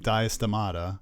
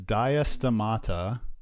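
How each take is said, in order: First: The syllables of the name are loosely run together. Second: Each syllable of the name is clearly articulated.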